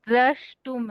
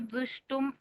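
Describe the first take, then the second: First: The word begins with the cluster 'dra'. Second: The word begins with the syllable 'du'. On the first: The speaker calls it right. "द्रष्टुम है वास्तव" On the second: The speaker calls it wrong. "उसको दुष्टुम ऐसे बोले आप"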